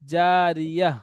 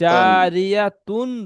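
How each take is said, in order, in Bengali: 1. শব্দটি নরম h ধ্বনি দিয়ে শেষ হয়েছে। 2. শব্দটি tun ধ্বনি দিয়ে শেষ হয়েছে। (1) "এই তাটি হা সাকিন করে পড়তে হবে" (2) "তা দুপেশ তুন"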